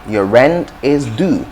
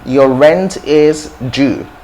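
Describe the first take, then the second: First: Due is said with a plain 'd' sound, like 'do'. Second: Due is said with a 'j' sound, like 'jew'. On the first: "The second is, is American English" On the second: "The first is British English"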